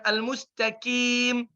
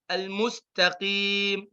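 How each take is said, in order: First: Al-mustaqim with a light front k; the kaf mistake; wrong kaf. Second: Throaty qaf; proper qaf; correct qaf. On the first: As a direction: kaf error. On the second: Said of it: "suaranya gimana". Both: Shown as a demonstration.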